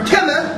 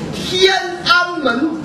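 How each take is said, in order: First: The middle syllable is swallowed. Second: All three syllables are said clearly.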